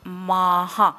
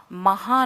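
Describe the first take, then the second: First: माहा, long माँ then ha; visarga as ha. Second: महा with short first a; wrong short a. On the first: Teacher demonstrating visarga as ha. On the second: Teacher showing the wrong way to say it. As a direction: say महा short, as the mistake to avoid. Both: Shown as a demonstration. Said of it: "महा नहीं".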